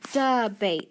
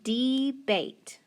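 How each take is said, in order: First: The first vowel is a weak schwa sound. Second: The first vowel is a long E sound. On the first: The speaker calls it right. "it's actually that schwa sound" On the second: The speaker calls it wrong. "it's going to be long. Does that sound right? No"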